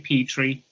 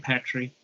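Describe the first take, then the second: First: Petri is said with an American pronunciation. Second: Petri is said with a non-American pronunciation. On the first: The speaker calls it wrong. "Don't say Petri, I hate it when Americans say Petri dish" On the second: The speaker calls it right. "say Petri"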